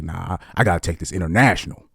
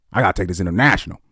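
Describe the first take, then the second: First: Mock hustler pastor. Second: Mock hustler pastor, faster. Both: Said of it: "they're like".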